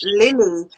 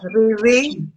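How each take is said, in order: First: The name is said with clear L sounds. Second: The name is said with rolled R sounds.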